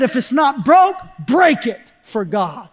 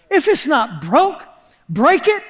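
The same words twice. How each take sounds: First: Emphatic maxim, slowing on the last words; quoted preacher. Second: Questioning repeat, pitch lifting on the last words; puzzled echo. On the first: Preacher quotes another preacher's saying, emphatic. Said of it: "I heard a preacher say it". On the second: Preacher repeats another preacher's saying, puzzled. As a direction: echo the saying as if it makes no sense. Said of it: "That makes no sense". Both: Retold or imitated.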